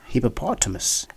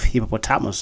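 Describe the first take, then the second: First: The stress is on the third syllable. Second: The stress is not on the third syllable. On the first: The speaker calls it right. "the stress falls on the third syllable" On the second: The speaker calls it wrong. "instead of"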